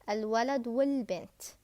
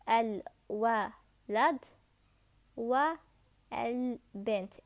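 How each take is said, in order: First: The 'a' of 'al' before bint is dropped. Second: The 'a' of 'al' before bint is pronounced. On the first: The speaker calls it right. "You have to read al-Walad wal-Bint" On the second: The speaker calls it wrong. "It's not like this"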